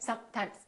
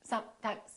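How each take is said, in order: First: The s and m sounds are cut short. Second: The s and m sounds are cut short.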